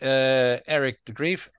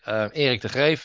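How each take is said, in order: First: The name is said the English way. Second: The name is said the Dutch way. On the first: This is how people locally say it. "That's what the people pronounce it" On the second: This is the original pronunciation from the home country. "if you pronounce it in Dutch"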